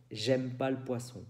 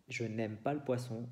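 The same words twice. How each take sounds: First: "J'aime pas le poisson" with the ne dropped; spoken French. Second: "Je n'aime pas le poisson" with the full ne; written French. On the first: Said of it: "se dice". (francés hablado, sin el ne) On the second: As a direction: say every word, ne included. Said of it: "es la frase normal". (francés escrito, con el ne) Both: Shown as a demonstration.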